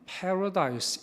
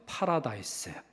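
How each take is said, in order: First: It is said with English pronunciation. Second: It is said with Korean-style pronunciation.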